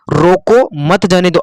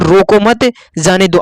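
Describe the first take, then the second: First: The pause comes right after रोको. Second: The pause comes right after मत.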